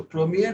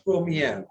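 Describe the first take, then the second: First: PREMIER with a closed last E; masculine premier. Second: PREMIÈRE ending in an open "yair"; feminine première. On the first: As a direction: say PREMIER as the masculine form, tight E at the end. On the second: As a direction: widen the last E of PREMIÈRE for the feminine. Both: Shown as a demonstration. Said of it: "premier becomes première".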